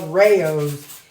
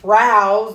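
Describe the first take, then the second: First: The name is said as two syllables, ray-os. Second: The name is said as one syllable, rhyming with house. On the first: The speaker calls it right. "it's called Rayos" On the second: The speaker calls it wrong. "I still call it the wrong thing"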